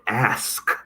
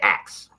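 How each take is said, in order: First: The word ends with a carefully articulated sk sound. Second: The word ends with a ks sound. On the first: The speaker calls it right. "So I overpronounce it" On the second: The speaker calls it wrong. "it sounds like I'm saying axe"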